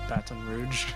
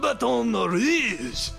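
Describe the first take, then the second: First: It is said the way Louisiana locals say it. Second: It is said with an exaggerated French sound. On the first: The speaker calls it right. "how people who live here say it" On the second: The speaker calls it wrong. "something like stupid in French sound"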